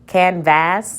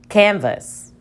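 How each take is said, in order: First: The second syllable has a full short a vowel. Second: The second syllable has a reduced schwa vowel. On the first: The speaker calls it wrong. "Let's try it as a short vowel" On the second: The speaker calls it right. "Let's try it with the schwa"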